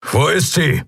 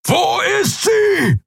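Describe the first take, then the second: First: Keru asks, voice raised higher; sharp worried question; urgent question. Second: Furious, drawn-out roar. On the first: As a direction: demand an answer, tense. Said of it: "Keru sprang auf". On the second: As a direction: bellow „Wo ist sie?“ much higher and slower. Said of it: "brüllte er". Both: A narrator's reading.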